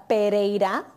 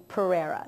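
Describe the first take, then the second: First: "Pereira" said the Spanish way, with a tapped r; Latin pronunciation. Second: "Pereira" said the easy English way, with an American r; anglicized pronunciation. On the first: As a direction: say "Pereira" as in the Latin family name. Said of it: "My last name is". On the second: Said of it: "but you can say". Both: Shown as a demonstration.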